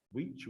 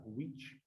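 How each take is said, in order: First: Which with a short closed i, like "wich". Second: Which said short with a closed i. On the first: Teacher correcting students: which with a closed i. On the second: Teacher modelling for students: which with a tight closed i. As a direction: keep the i of which tight and brief. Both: Shown as a demonstration. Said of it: "o som do i é mais fechado".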